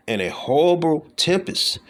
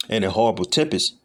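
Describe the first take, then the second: First: "horrible" leaps much higher in pitch, slow; rising emphasis. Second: Said in the usual way. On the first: Acted. Preacher reads Psalm 11:6 to his flock, "horrible" raised high.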